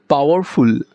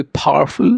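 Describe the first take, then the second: First: Said in the usual way. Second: পাওয়ারফুল with a puff of air on the p; foreign-style aspirated ph in পাওয়ারফুল; পাওয়ারফুল said as phowerful. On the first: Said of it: "আমরা যদি বলি". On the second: Shown as a demonstration. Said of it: "ওরা বলবে পাওয়ারফুল".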